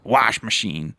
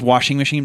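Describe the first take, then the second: First: The first word is clipped without the -ing. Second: The first word is said in full with -ing. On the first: "but the way he pronounces it" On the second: "It's washing machine"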